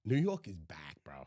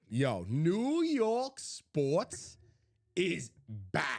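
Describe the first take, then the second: First: Conspiratorial whisper; hushed hype. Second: Emphatic hype. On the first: Co-host confides New York is back, hushed whisper. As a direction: whisper the big news to your buddy. Hyped reveal, dropped to a whisper. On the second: Co-host proclaims a New York comeback, slow and emphatic. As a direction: stretch each word out for emphasis. Hype declaration after whispered take. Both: Real, not acted.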